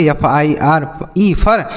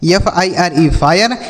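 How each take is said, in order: First: फर with plain 'a', no glide; wrong reading. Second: फायर with 'aay' glide before r; correct reading. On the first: Teacher testing students with a misreading, slow spelling then फर as 'far'. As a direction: spell slowly, then say फर as one-syllable 'far'. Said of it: "क्या हम इसे फर पढ़ेंगे". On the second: Teacher showing students the rule, slow spelling then फायर as 'faa-yar'. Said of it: "आई का उच्चारण आय होगा". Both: Shown as a demonstration.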